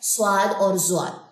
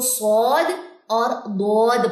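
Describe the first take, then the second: First: The second name begins with a z sound. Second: The second name begins with a d sound. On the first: The speaker calls it wrong. "ये पाकिस्तानी एक्सेंट या उर्दू एक्सेंट में आता है" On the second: The speaker calls it right. "Arabic accent की बात करें तो"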